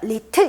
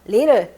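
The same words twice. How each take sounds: First: The middle T is a crisp, clear T. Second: The middle T is a soft, L-like flap. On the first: The speaker calls it wrong. "이게 아니라" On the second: The speaker calls it right. "이렇게 하는 게 훨씬 더 좋을 것 같아요"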